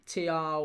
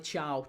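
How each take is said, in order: First: The surname begins with a t sound. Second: The surname begins with a ch sound. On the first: The speaker calls it wrong. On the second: The speaker calls it right.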